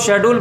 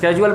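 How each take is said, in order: First: The word begins with a 'sh' sound. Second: The word begins with a 'sk' sound. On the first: This is the British way. "Britain वाले जो है इसको शेड्यूल पढ़ते हैं" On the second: This is the American way. "America वाले इसको स्केजुअल पढ़ते"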